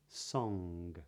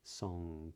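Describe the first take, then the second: First: The word ends with a hard G sound. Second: The word ends with a K-like sound. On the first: "but not" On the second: "something a bit more like a K at the end"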